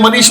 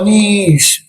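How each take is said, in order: First: The name is said flatly without feeling. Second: The name is said in a sad tone.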